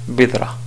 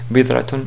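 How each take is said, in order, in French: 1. Le mot se termine par une voyelle, sans t. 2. Le mot se termine par la terminaison -tun complète. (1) "si on voulait appliquer les règles de l'arrêt" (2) "à la limite"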